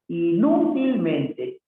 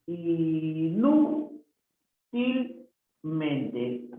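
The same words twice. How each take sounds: First: Said in the usual way. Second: "inútilmente" hugely stretched, each syllable separate. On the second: Shown as a demonstration. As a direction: draw out every syllable of "inútilmente". Teacher sounds out word for accent. (separando las sílabas muy lentamente)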